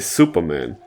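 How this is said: It is pronounced the English way. "Or we say Superman"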